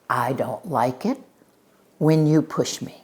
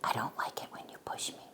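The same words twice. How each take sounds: First: It is said slowly in a firm, full voice. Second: It is whispered in a tiny, small voice. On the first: The speaker feels confident. "She speaks slowly and firmly" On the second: The speaker feels scared. "he whispers in a teeny tiny voice"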